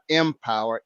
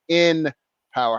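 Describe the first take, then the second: First: The word begins with an 'em' sound. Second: The word begins with an 'in' sound. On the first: "It's not empower, E M" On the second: "I'm talking about in power"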